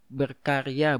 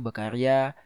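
First: Said in the usual way. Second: Berkarya with the r dropped, said bakarya; lisped r. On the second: Real, not acted. (berkarya diucapkan cadel tanpa r) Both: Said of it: "Aduh sorry gue cadel ya".

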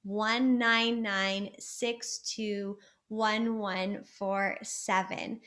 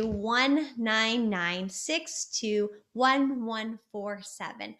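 First: Each digit spoken slowly and deliberately, "One nine nine six two one one four seven"; slow number recital. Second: Drawn-out digits fading at the end; slow number recital. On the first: Coach showing viewers how to say their number, slow and deliberate. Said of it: "So write this down, say it out loud". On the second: Coach repeating the number for viewers, slow and fading. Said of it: "say it out loud, play with it". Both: Shown as a demonstration.

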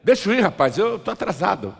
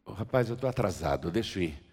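First: Raised, higher plea to get away; insistent brush-off. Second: Softer, lower, hurried-passerby excuse; low-key brush-off. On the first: Passerby pressed by a beggar, insistent brush-off. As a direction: push past with a firmer, higher voice. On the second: Passerby putting off a begging man, low-key brush-off. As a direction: excuse yourself quietly and low. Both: Acted.

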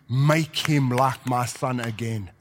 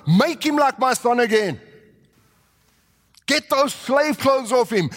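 First: Slow, soft and lower; longing quietly for his son back; gentle, drawn-out father's wish; tender plea. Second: Excited father's call; urgent order. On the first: Father's tender wish, softly slowed. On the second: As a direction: command it with eager joy. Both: Retold or imitated.

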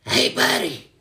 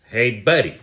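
First: Strained, higher parrot voice; beaten-up parrot calling out; battered parrot. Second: Said in the usual way. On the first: Acted. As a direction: croak it like a bruised bird. Battered parrot calls out weakly.

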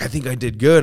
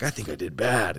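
First: Louder, lifted at the end; a touch of confidence, rising finish; mildly upbeat quote. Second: Understated, falling finish; a touch of defeat, voice dropping; mildly downbeat quote. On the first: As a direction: imitate a friend's hopeful verdict. Friend's upbeat verdict, set against his. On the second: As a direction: retell your own verdict as a small letdown. His own downbeat verdict, in contrast. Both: Retold or imitated.

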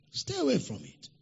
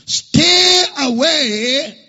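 First: Soft repeat. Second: "stay away" said very slowly, loud and high, each word stretched; drawn-out command. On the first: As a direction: say "Stay away from it." softly, almost to yourself. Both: Shown as a demonstration.

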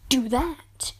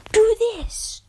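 First: Said in the usual way. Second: Loud, higher bossy order; mock bossy order. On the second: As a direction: bark it like a pushy fan giving orders. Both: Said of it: "so then you can email me saying".

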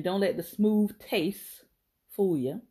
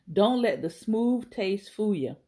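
First: Slow, deliberate reading of the saying; each word laid down slowly; slow pronunciation demo. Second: Slow demo. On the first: Reading the phrase aloud to viewers, slow and deliberate. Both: Shown as a demonstration.

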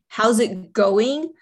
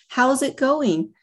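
First: Slow, drawn-out and pitched high, rising in disbelief; half-held-back frustration, echoing their cheery words; mock exasperated yell. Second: Bright, sing-song greeting, pitched high and falling; breezy acquaintance asking, all smiles; cheery small talk. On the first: Read to mothers, a worn-out mother's mock fed-up retort. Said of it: "you want to yell and say". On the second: Retold or imitated. Read to mothers, a well-meaning acquaintance's cheery greeting. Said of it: "With optimistic smiles on their well-meaning faces".

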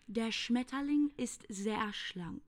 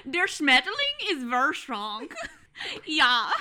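First: Slow, softer, careful "Der Schmetterling ist sehr schlank"; careful German pronunciation. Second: Loud, slow, hammed-up German accent. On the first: Correcting cohost, careful German "Der Schmetterling ist sehr schlank". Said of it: "try to actually pronounce it". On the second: Showing off for cohost, mock German accent. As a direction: belt out a comic German accent, laughing. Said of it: "Hear my German accent". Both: Shown as a demonstration.

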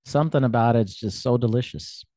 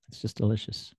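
First: Said in the usual way. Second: Soft and dreamy, much softer, savoring the word delicious; wistful. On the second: Real, not acted. Musing to his guest about bourbon, softly wistful. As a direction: drift off fondly as if tasting it. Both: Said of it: "really wistful then".

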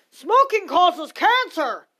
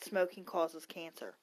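First: High, loud, drawn-out mock warning; exaggerated imitation of a preachy public warning; mock slogan shout. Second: Said in the usual way. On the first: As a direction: parrot a scare slogan at full volume. Mocking the anti-smoking slogan.

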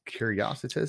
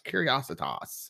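First: Curiositas with a weak 'tis' ending, rising; unsure pronunciation. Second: Curiositas slowly, with open 'toss' ending; corrected pronunciation. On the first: Unsure host asking co-host, Curiositas with 'tis' and rising tune. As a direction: ask Curiositas, ending on 'tuss'. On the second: Host echoing co-host's correction, Curiositas slow with 'tahs'. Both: Shown as a demonstration.

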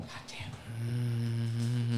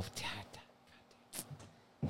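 First: Said in the usual way. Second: Whispered. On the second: Real, not acted. Reacting to hot sauce.

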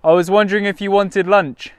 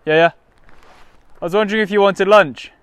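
First: Repeated loud, high call; calling from far away again. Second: Loud, high-pitched call; calling from far away. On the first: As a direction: call it again so she hears. Repeats louder call unheard. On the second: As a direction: call the question across a distance. Calling to distant friend. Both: Real, not acted.

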